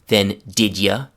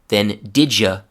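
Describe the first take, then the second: The two takes are said the same way.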